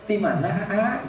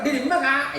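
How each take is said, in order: First: It is said softly in a Sundanese accent. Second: It is said in a Madurese accent.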